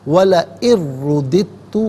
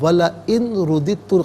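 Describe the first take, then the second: First: The n sound merges into the next sound. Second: The n sound is pronounced separately. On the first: The speaker calls it right. "यहाँ पर भी यरमलून का कायदा अप्लाई होगा" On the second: The speaker calls it wrong. "गलत"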